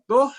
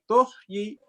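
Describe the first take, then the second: First: The word stops without a final y sound. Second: The word ends with a faint y sound. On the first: "ketika di wakaf di sini bisa dua cara" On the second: "dengan tuhyi, ya, y-nya dibaca"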